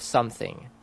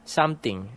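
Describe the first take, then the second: First: "something" with a soft TH; standard TH. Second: "Something" as "samting". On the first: Demonstrating the standard form, "something" with a true TH. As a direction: say "something" with the tongue between the teeth for TH. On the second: Demonstrating the local form, "Something" as "samting". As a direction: say "Something" with a plain T for the TH. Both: Shown as a demonstration. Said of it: "instead of something".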